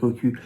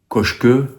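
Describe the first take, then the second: First: The middle consonant is a plain 'k' sound. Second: The middle consonant is a 'ch' sound.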